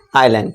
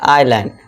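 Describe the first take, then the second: First: The s sound is silent. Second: The s sound is silent.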